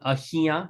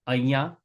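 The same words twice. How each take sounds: First: The word is said with an H sound. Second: The word is said without an H sound. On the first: "it's written ahiya" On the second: "it's usually pronounced ahiya. We don't pronounce the H"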